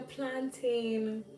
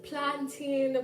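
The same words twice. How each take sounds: First: "planting" said plan-TAIN, drawn out; imitated alternative pronunciation. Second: Put-on "planting" said PLAN-teen, stretched and higher; imitated variant pronunciation. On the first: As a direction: quote "planting" with a long second syllable, like tain. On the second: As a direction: quote "planting" drawn out with a teen ending. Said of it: "somebody was like".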